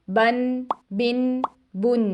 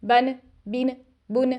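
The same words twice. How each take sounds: First: बन बिन बुन unhurried, each n fully sounded; correct calm way. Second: बन बिन बुन hurried with the final n clipped; wrong rushed reading of tanween. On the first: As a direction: read बन बिन बुन calmly with a clear ending n. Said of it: "हमने कैसे पढ़ना है?". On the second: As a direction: read बन बिन बुन too quickly so the n gets lost. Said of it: "बहुत ज़्यादा जल्दी करेंगे तो आखिर में आने वाली नून की आवाज़ शेक हो जाती है". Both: Shown as a demonstration.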